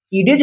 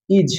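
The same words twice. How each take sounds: First: "ईडेज" with the D pronounced; D wrongly sounded. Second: "इज" said with no D sound; silent D. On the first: Teacher showing the mistake of reading D, "ईडेज" with D sounded. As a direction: split "ईडेज" into two syllables, voicing the D. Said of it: "इसको हम पढ़ेंगे तो". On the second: Teacher showing students the silent D, "इज" without any D. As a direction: say "इज" as one syllable, D left silent. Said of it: "डी को हम पढ़ रहे हैं". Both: Shown as a demonstration.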